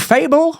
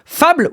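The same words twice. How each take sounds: First: It is said with an English accent. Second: It is said with a French accent.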